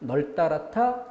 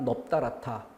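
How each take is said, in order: First: The first syllable ends with an L sound. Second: The first syllable ends with a P sound. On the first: "리을로 널따라타 이렇게 발음해야 될 거고" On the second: "비읍이 소리 난다면 넙따라타 이렇게 소리가 나겠죠"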